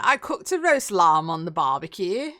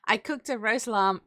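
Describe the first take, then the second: First: Said in the usual way. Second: "roast lamb" with a touch of posh British vowels; slightly posh British accent; slipped into posh British. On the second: Real, not acted. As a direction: let a hint of British poshness slip in, unplanned. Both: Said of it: "I don't know why I went really posh there".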